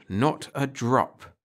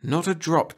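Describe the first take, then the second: First: "not a drop." drawn out slowly, each word weighted; slow firm repeat. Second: Said in the usual way. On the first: A narrator's reading. Agent Carol refusing drunk Kurt a drink, slow and firm.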